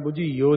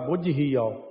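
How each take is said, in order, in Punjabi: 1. ਸ਼ਬਦ ਆਪਸ ਵਿੱਚ ਰਲ ਕੇ ਇੱਕ ਬਣ ਜਾਂਦੇ ਹਨ। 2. ਹਰ ਸ਼ਬਦ ਪੱਕੇ ਤੇ ਸਾਫ਼ ਤਰੀਕੇ ਨਾਲ ਬੋਲਿਆ ਜਾਂਦਾ ਹੈ। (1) "ਬੁੱਝੀਓ ਨਹੀਂ ਕਰਨਾ" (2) "ਇਹ ਵੀ ਕੱਸ ਕੇ ਕਰਨਾ"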